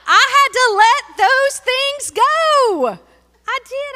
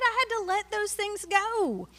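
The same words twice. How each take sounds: First: High, loud, slow preacher's cry; soaring pulpit proclamation; preaching climax. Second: High but easing back down; same line, calmer, still lifted. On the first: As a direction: lift it up like a testimony shout. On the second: Repeated, softer after climax. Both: Acted.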